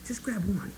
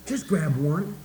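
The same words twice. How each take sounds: First: "Just grab one." said higher and much softer, leaning on "grab"; softer repeat. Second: Said in the usual way. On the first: Shown as a demonstration.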